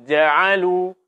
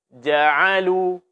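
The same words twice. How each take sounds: The two takes are said the same way.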